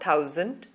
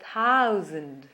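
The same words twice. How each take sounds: First: The first vowel stays steady without gliding. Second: The first vowel glides as an ow sound. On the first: The speaker calls it wrong. "Not thousand" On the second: The speaker calls it right. "but thousand. See the difference in the way my mouth moves"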